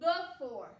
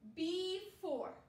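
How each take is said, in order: First: The first vowel is a weak schwa sound. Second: The first vowel is a long E sound. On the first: "that E can say the schwa sound, uh" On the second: "we're saying E, E, the vowel's name"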